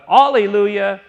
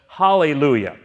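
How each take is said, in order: First: The word begins directly with a vowel sound. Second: The word begins with an H sound. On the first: This is the form as written in the English translation. The speaker calls it wrong. "you can read it as it's written there in the New King James" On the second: This follows the Hebrew pronunciation. The speaker calls it right. "But it's Hallelujah"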